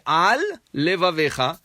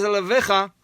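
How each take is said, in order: First: "Al levavecha" with a held lamed and a clear break after "Al"; "Al levavecha" said carefully as two words; separated correctly. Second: "Alevavecha" blurred into one word, the two lameds merged; "Alevavecha" slurred with one lamed, the wrong way; run together wrongly. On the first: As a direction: pause between "Al" and "levavecha" so both lameds sound. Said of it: "Instead of saying". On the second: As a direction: say "Alevavecha" fast as a single word with no gap. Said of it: "see, it sounds like one word". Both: Shown as a demonstration.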